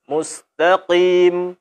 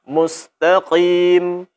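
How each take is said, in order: No difference in how they are said.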